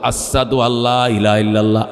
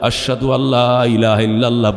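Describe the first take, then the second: First: Ashhadu is said with an s-like sound. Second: Ashhadu is said with a clear sh sound.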